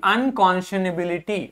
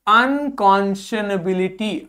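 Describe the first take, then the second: First: Said in the usual way. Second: Slow model word. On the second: Shown as a demonstration. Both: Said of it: "क्या हो गया".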